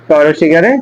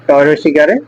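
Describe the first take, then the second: No difference in how they are said.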